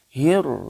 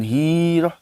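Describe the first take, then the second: First: The vowel is short and runs into the r. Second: The vowel is drawn out before the r. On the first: The speaker calls it right. "masukkan ke huruf ro" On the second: The speaker calls it wrong. "jangan hiroh"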